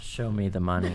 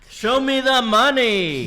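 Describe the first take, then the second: First: It is said at a quieter volume. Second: It is said at a louder volume.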